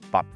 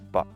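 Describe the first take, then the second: First: It has a Cantonese-influenced tone and vowel. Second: It has a plain standard English tone and vowel. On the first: "the Cantonese tones and vowels still had an influence on the inflection, like I would say but" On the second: "instead of but"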